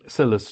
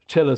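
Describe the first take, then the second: First: The word begins with an 's' sound. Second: The word begins with a 'ch' sound. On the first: The speaker calls it wrong. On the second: The speaker calls it right. "I think Chilla is the is the proper pronunciation"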